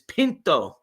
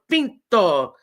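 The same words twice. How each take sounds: First: It is said with an English accent. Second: It is said with a Spanish accent.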